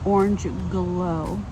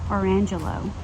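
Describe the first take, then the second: First: It is said as two words with a g. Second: It is said as one word without a g. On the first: The speaker calls it right. "I heard them pronounced correctly on another video. It's Orange Glow" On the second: The speaker calls it wrong. "I was calling them Orangelo"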